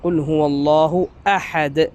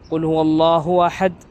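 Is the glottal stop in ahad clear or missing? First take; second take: clear; missing. First: The glottal stop in ahad is clear. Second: The glottal stop in ahad is missing. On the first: The speaker calls it right. "അപ്പോൾ ഹംസ കൃത്യമായി പറയണം" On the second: The speaker calls it wrong. "ഓതുന്നത് കേൾക്കാം"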